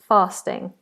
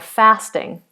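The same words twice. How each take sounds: First: It is said in a standard British accent. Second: It is said in an American or northern accent. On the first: "But standard British English" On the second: "American English or Northern British English would be"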